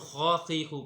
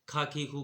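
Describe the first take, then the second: First: It starts with a heavy throaty kh sound. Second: It starts with a light aspirated k sound. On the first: The speaker calls it right. "खौ खी खू मोटा करना है" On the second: The speaker calls it wrong. "लापरवाही की वजह से खा खी खू कहते हैं"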